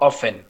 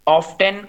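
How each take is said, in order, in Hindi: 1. इस शब्द में t साइलेंट है। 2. इस शब्द में सुनाई देने वाली t की आवाज़ होती है। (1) "ब्रिटिश इसको ऑफन बोलते हैं" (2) "अमेरिकन जो है इसको ऑफ्टन बोलते हैं"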